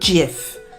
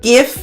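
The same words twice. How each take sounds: First: The word starts with a J sound. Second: The word starts with a hard G sound. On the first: The speaker calls it wrong. "not GIF. Because Jif, Jiffy is peanut butter" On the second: The speaker calls it right. "I'm pronouncing it GIF"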